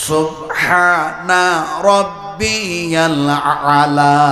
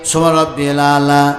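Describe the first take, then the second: First: The first word ends with a final 'a' vowel. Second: The first word ends without a final vowel. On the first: The speaker calls it right. "ওই জায়গায় আছে" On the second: The speaker calls it wrong. "সুবহান রাব্বিয়াল আলাও নেই"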